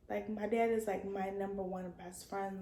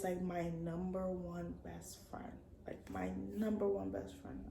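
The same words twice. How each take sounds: First: Said in the usual way. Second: Whispered, soft and tender. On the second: Real, not acted. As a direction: breathe it out like a secret. Repeats it softly about dad.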